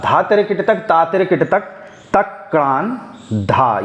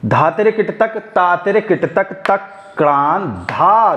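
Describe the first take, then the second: First: First round of the tihai, chanted on the beat; rhythmic bol recitation. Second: Rhythmic bol recitation. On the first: Teacher showing the first round on the straight beat. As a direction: keep the claps on the straight beat. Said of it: "जो हमारी पहला round है तिहाई का". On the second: Teacher showing the off-beat round of the tihai. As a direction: shift the accent onto किट तक. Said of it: "तो देखिएगा". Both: Shown as a demonstration.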